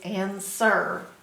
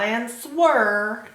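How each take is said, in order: First: No W sound is heard in the middle. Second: A W sound is heard in the middle. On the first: The speaker calls it right. "it's answer" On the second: The speaker calls it wrong. "It's not answer"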